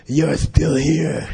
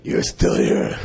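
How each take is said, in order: First: A hint of the stern teacher, slowed right down; Lama's voice. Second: Breathy whispered repeat of the line; whispered Lama. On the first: Imitating the Lama catching him behind the chair, slow. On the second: Retold or imitated. Repeating the Lama's line to the listener, whispered. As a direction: breathe it out like a hushed old teacher. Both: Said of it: "His voice was like that".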